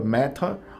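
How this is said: It is said with a British accent. "Pode ser britânica"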